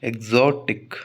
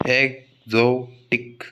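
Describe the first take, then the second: First: Said in the usual way. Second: एक्सोटिक slowly split into eg-zo-tik; syllable by syllable. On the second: Shown as a demonstration. Teacher finding the stressed part for students, एक्सोटिक syllable by syllable as eg-zo-tik. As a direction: break एक्सोटिक into eg, zo, tik with gaps between. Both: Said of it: "जो पर आएगा".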